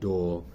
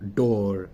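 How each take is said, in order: First: The word is said with a soft, light sound. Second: The word is said with a harsh, hard sound.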